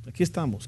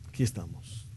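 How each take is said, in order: First: Said in the usual way. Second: Much lower, much softer, almost breathed; hushed echo. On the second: Real, not acted. Preacher to congregation, hushed and low. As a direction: let the phrase sink in, barely voiced. Preacher echoes phrase, near whisper.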